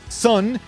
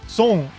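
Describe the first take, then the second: First: It has an open vowel and a plain front n. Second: It has an o vowel and a back ng ending. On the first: The speaker calls it wrong. "it's not son" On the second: The speaker calls it right. "it's son"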